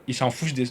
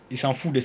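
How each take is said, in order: Both takes have the same delivery.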